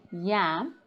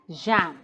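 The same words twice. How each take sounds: First: "yam" with a clear y glide; intended word. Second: "jam" with a zh onset, standing for yam; mispronunciation. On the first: Shown as a demonstration. Teacher giving the word the learner meant, careful articulation. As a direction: start "yam" on y, no buzz. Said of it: "when they mean to say yam". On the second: Retold or imitated. Teacher quoting a learner's mistake, mispronounced word. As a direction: buzz the first sound of "jam". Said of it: "you hear somebody saying jam".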